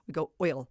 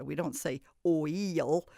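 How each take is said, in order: First: "oil" said smoothly as one blended syllable. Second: "oil" slowly split into two separate sounds; pulled-apart oil. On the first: Teacher shows the right, blended way to say "oil". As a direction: glide straight through "oil" as one sound. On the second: Teacher shows the wrong way to say "oil", sounds split. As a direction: break "oil" apart, o then il. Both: Shown as a demonstration. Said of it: "We don't say oil, we go oil".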